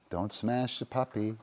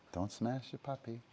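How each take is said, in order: First: Said in the usual way. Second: Same warning, much softer; quiet aside to the dog; soft repeat. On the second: Real, not acted. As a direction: say it again under your breath. Repeats the warning more softly.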